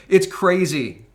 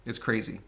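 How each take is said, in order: First: It's crazy said louder with a hard fall on "It's"; "It's crazy" thrown out louder with a falling tune; louder exclaim. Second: It's crazy said much softer, sinking on "crazy"; "It's crazy" murmured softly with a falling end; dropped quiet. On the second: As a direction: let "It's crazy" fall away quietly. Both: Real, not acted. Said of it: "I'm laughing, but it's crazy".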